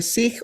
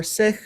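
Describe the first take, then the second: First: Sikh said like "seek"; long-vowel Sikh. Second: Sikh said like "sick"; short-vowel Sikh. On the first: Offering listeners one pronunciation, Sikh said as "seek". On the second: Offering listeners the other pronunciation, Sikh said as "sick". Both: Shown as a demonstration. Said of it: "with the Sikh or Sikh".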